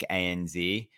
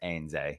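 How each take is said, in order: First: The last letter is said as zee. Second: The last letter is said as zed. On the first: "So there's a bank" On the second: "but it's pronounced"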